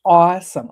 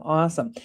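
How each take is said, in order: First: Awesome said louder, with a burst of excitement; excited awesome. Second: Said in the usual way. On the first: Real, not acted. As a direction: punch "awesome" out with delight. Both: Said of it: "that was such a beautiful moment".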